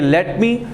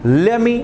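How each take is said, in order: First: The t at the end of 'let' is pronounced. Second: The t at the end of 'let' is dropped.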